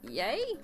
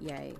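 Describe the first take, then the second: First: The voice rises at the end, like a question. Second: The voice falls at the end, like a statement. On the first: The speaker sounds unsure. The speaker calls it wrong. "Why am I making it sound like a question?" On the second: The speaker sounds certain. The speaker calls it right. "It's a definite yay"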